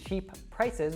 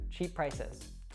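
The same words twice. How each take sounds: First: Both P sounds are pronounced separately. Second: The two P sounds merge into one. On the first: The speaker calls it wrong. "instead of saying" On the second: The speaker calls it right. "we drop that first P and then we link them together"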